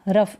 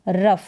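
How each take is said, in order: The two takes are said the same way.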